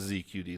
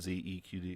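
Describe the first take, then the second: First: Three letter names are spoken, without an E. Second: Four letter names are spoken, including an E. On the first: The speaker calls it right. "it is Z Q D" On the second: The speaker calls it wrong. "not Z E Q D"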